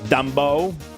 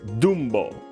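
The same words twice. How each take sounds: First: The first vowel sounds like 'uh'. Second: The first vowel sounds like 'oo'.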